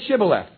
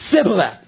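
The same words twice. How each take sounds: First: The word begins with an sh sound. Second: The word begins with an s sound. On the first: "Say Shibboleth" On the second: "they couldn't pronounce the SH sound"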